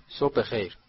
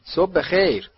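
First: Said in the usual way. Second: Higher, louder friendly hello; pitched-up, cheery good morning; cheerful greeting. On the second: A narrator's reading. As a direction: greet a stranger brightly and heartily. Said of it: "آقای ویزلی با خوشرویی گفت".

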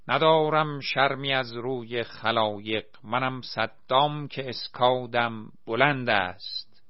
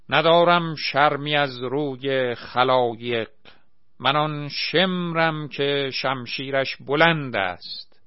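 First: A milder parody of the Shemr verse; mock tyrant boast. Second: Loud, slow pompous recital; villain declaiming. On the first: A narrator's reading. Saddam parodying Shemr's verse, milder mock declamation. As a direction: parody the verse with less force. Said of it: "فریاد زد". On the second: Acted. Asghar as Shemr declaiming to the crowd, loud slow bombast. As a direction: boom the verse like a stage tyrant.

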